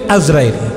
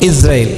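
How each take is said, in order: First: The name begins with an 'Az' sound. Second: The name begins with an 'Is' sound. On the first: This is the popular form people widely use. "গলত মশহুর, যেটা আমাদের মধ্যে প্রসিদ্ধ হয়ে গেছে।" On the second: This is the original correct form. "আসলে শুদ্ধ উচ্চারণ হলো ইসরাইল।"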